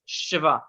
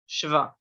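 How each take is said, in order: No difference in how they are said.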